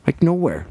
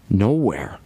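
First: "nowhere" said again higher, with weight; stress on nowhere. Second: Said in the usual way. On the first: Shown as a demonstration. Repeating nowhere to drive it home, stressed.

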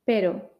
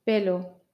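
First: Pero with a single tapped r; pero, one quick flap of the tongue; soft R. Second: Pelo with a clear l. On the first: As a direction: tap the r once in pero. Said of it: "Con R suave". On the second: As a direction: keep the tongue on the ridge for pelo. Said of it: "con L". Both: Shown as a demonstration.

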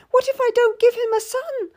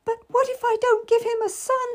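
First: High, anxious question; fretting over a son; scared young lady. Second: Wailing. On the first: Lady fears failing the king, high anxious voice. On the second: Lady wails her fear to Cat, high despairing wail. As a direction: cry it out in despair. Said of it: "she wailed". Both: A narrator's reading.

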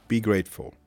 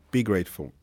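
No difference in how they are said.

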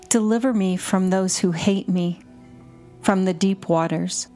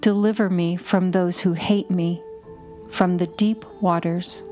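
The two takes are said the same way.

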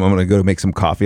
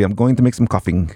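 First: Said in the usual way. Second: "coughing" for coffee, ending in a clear ng; ING on everything. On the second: Shown as a demonstration. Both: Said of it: "I put an I N G on everything".

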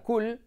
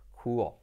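First: "cool" as KOOL, Spanish l; short vowel, light l in "cool"; pronunciación errónea. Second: "cool" low, as KOO-ol; pronunciación inglesa. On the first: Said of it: "pensabas que se decía cool". ("cool" dicho «cul») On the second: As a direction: glide "cool" into a dark English l. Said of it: "en inglés se dice cool". ("cool" grave, «cúol») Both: Shown as a demonstration.

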